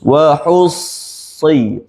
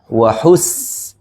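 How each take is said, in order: First: The s sound is thick and heavy. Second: The s sound is sharp and thin. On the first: The speaker calls it right. "Kalau sad, ... Tebal" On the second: The speaker calls it wrong. "bunyi dia tajam. Sin"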